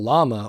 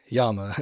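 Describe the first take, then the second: First: The word is said the ordinary everyday way. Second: The word is said in an affected, refined way.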